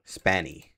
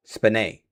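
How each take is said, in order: First: Spaney as SPAN-ee, softly; trying a pronunciation. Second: Spanay as spuh-NAY; trying a pronunciation. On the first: Streamer working out an actress's surname, tentative pronunciation. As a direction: sound out Spaney with the first syllable like "span". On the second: Streamer working out an actress's surname, second pronunciation attempt. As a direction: sound out Spanay softly, ending in a stressed "nay". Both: Shown as a demonstration. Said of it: "I think that's how you pronounce it".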